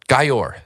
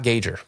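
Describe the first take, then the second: First: The middle consonant is a y sound. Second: The middle consonant is a hard g sound. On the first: The speaker calls it right. "I learned how to, for everyone" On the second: The speaker calls it wrong. "Everyone's saying it wrong"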